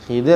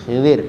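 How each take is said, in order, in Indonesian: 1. Vokal pertama berbunyi seperti 'i'. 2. Vokal pertama berbunyi seperti 'i'.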